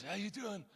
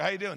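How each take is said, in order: First: Hushed intimidating mobster impression; Glenn. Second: Said in the usual way. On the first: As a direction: play a Godfather tough guy, very softly. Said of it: "Literally like this". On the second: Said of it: "he talks like this".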